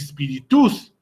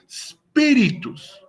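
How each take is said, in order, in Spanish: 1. El acento no cae en la primera sílaba. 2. El acento cae en la primera sílaba. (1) "no se pronunciaría como spiritus" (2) "En spi, ahí vamos a poner nuestro acento tónico"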